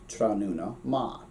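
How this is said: The last word ends in an 'a' vowel. "But in Connacht, also in Munster"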